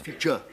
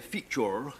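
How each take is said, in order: First: The word ends with a weak uh murmur. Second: The word ends with a clear R sound. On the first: This is what it later turned into. "it becomes feature, uh" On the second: This is the old way of saying it. "you say feature in the old days"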